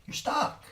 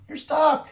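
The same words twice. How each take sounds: First: Whispered. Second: "You're stuck" yelled much higher and louder; shouting "stuck" at the struggling bank; shouted. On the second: Yelling the verdict at the struggling banks, a much higher shout. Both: Acted. Repeats verdict in contrasting ways.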